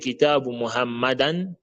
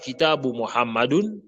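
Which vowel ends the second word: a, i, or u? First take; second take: a; u. First: The second word ends in -an. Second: The second word ends in -un. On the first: "on ne dit pas" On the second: "on ne dit pas"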